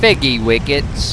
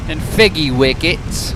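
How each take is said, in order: First: Slow, lightly put-on British accent, "Figgy wickets" said with a rise; a touch of British toff; mock British accent. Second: Slow, lightly put-on British accent; a hint of a toff saying figgy wickets; mock British accent. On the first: Mock British accent repeating the made-up food name. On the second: Slow, mock British accent naming made-up British food. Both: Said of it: "How is my British accent".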